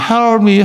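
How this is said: The p is swallowed and the words run together. Breath is not pushed out. "미국 놈들은 헬미"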